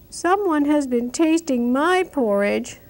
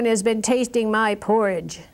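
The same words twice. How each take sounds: First: It is said in a little baby voice. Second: It is said in a great big voice.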